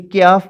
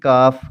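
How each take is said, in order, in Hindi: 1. k ध्वनि के बाद 'y' ग्लाइड आती है। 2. k ध्वनि के बाद कोई ग्लाइड नहीं आती। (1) "पढ़ते थे उर्दू में हम" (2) "हम पढ़ेंगे काफ किताब वाला"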